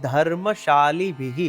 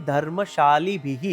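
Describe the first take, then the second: No difference in how they are said.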